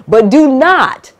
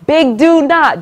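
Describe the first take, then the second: First: "do not" drawn out slowly, higher and louder; stress on do not. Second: "big do not" pitched higher, with "do" hit hard; stress on big do not. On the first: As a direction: lean hard on "do not" as a big warning. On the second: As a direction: punch "do" in "big do not" as a warning. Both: Real, not acted.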